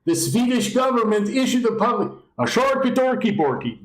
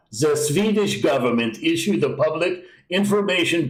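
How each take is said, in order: First: Much higher, hammed-up Swedish Chef babble; cartoonish Swedish accent, higher; mock Swedish accent. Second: Put-on mild, unsure Swedish accent; half-hearted mock Swedish accent. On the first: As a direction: go full silly Swedish accent into gibberish. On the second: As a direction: try a light Swedish accent on the pamphlet. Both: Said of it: "I don't know if that's a Swedish accent".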